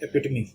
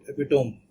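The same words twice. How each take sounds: First: The word ends with a voiced ee sound. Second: The word ends with a silent final e. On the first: The speaker calls it right. "It's epitome" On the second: The speaker calls it wrong. "they will pronounce it epitome, which will be uh, incorrect thing to do"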